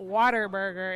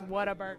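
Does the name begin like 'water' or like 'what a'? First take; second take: water; what a. First: The start sounds like the word water. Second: The start sounds like the words what a. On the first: The speaker calls it wrong. "So it's not Water Burger" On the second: The speaker calls it right. "It's What a Burger"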